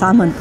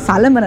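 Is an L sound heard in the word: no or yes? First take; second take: no; yes. First: The word is said without an L sound. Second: The word is said with an L sound. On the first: The speaker calls it right. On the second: The speaker calls it wrong. "ಸಾಲಮನ್ ಅಲ್ಲ ಕಣ"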